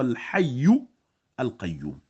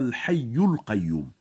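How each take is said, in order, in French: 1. Les deux mots sont prononcés séparément, sans liaison. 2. Les deux mots sont enchaînés avec une liaison.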